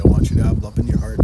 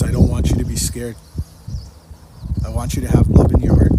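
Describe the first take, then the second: First: Louder again, rushed and pressing; loud fast repeat. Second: Much louder, urgent plea; loud retold message. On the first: Retold or imitated. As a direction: hammer the message home, quickly. Repeating God's message, louder still. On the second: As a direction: call it out like a message from above. Retelling God's message in dream.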